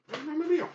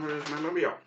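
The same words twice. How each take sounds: First: Pitched much higher, a playful lilt on Mobile; high singsong search. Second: Said in the usual way. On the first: Real, not acted. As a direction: sing the question up high, searching.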